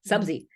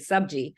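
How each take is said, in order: First: The middle consonant is a z sound. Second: The middle consonant is a j sound. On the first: This is how people from other regions say it. "there are other Indians who say Subzi" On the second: This is how the speaker's family says it. "in our family, we always say Subji"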